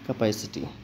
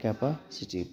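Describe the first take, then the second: First: It is said smoothly as one word, 'capacity'. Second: It is split into two chunks, 'capa' and 'city'. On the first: The speaker calls it right. "ये हमारा सही pronunciation होगा" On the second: The speaker calls it wrong. "फिर गलत हो रहा है ना"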